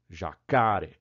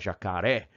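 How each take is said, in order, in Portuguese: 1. A tônica cai na sílaba do meio. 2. A tônica cai na última sílaba. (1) "a tônica natural é jacaré" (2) "Quando a gente falava jacaré"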